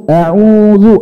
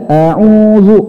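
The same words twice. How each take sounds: Both takes have the same delivery.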